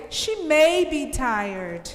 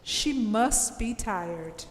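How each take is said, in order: First: "may" stressed in a slow, tentative reading. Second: Slow, certain "must"; stress on must. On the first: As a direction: put the weight on "may", unhurried. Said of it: "to suggest that there is a chance". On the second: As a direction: say "must" slowly as a firm deduction. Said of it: "I use must". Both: Shown as a demonstration.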